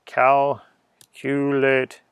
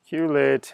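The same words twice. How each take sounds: First: Stretched out very slowly. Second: Said in the usual way. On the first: Pretend. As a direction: draw the word out like a grand incantation. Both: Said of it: "You have to say it in that voice".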